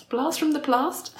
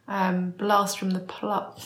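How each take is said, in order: First: "blast from the past?" lifted high, rising at the end; amused questioning rise. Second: "blast from the pla-" cut off mid-word; tripping over the phrase. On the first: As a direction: correct it to "past" with a bright, high query. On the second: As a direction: stumble on "pla-" and stop short. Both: Real, not acted.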